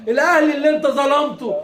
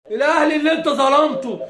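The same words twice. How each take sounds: The two takes are said the same way.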